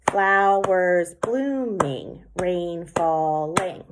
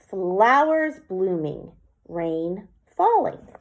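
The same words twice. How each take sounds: First: "Flowers blooming, rain falling" split into slow, separate syllables; clapped out syllables. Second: Slow, measured haiku line; poem reading. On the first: Teacher counts seven claps for the class, slowly. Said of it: "Seven syllables". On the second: Teacher reads her second haiku line, slow. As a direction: read it like a poem, slowly. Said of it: "The second line". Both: Shown as a demonstration.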